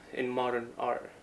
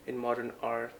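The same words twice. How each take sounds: The two takes are said the same way.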